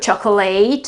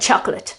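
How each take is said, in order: First: The ending sounds like the full word eight. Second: The ending is a weak, short 'ut' sound. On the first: The speaker calls it wrong. "It's not certificate or chocolate" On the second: The speaker calls it right. "it is certificate and chocolate"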